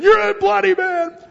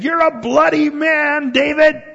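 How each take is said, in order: First: Much higher, loud, put-on voice of a scruffy old man; mock yell. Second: High, loud accusing yell; mock yell. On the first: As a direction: shriek the insult at David in a scraggly old man's voice. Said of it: "starts throwing them at David, saying". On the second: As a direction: hurl the accusation at David, higher and louder, slowing on "You're a bloody man". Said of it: "he starts yelling at David".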